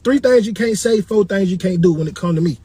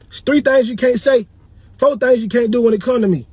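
First: It is said at a quicker pace. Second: It is said at a slower pace.

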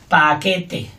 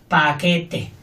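Both takes have the same delivery.

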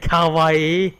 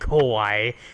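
First: It sounds like the Japanese word for cute. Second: It sounds like the Japanese word for scary. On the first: Something is cute. The speaker calls it right. "Say kawaii" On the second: Something is frightening. The speaker calls it wrong. "please stop saying kawaii"

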